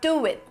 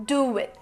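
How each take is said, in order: First: A W sound joins the two words. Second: The same.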